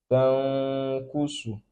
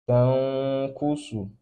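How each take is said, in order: Both takes have the same delivery.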